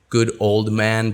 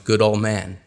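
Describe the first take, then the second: First: Every sound in the phrase is pronounced fully. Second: Some sounds in the phrase are dropped.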